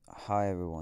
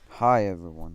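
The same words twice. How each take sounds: First: It is said flatly, without enthusiasm. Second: It is said with lively enthusiasm.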